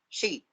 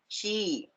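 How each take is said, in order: First: The vowel is said short. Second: The vowel is said long. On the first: The speaker calls it wrong. "we don't say she" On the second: The speaker calls it right. "we say she"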